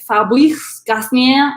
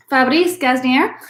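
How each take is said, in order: First: Unsure stab at French pronunciation; attempted French accent. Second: French name with a Spanish accent. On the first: Shown as a demonstration. Wine host correcting herself on the winemaker's name, French accent. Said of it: "That's not how you say". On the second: Real, not acted. Wine host reading a French winemaker's name, Spanish accent. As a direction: say it as if it were Spanish. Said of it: "in a Spanish accent".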